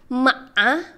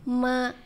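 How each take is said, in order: First: The pitch dips down then rises. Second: The pitch stays level and flat. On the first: "tiga tuh kayak V" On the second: "nada pertama tuh datar"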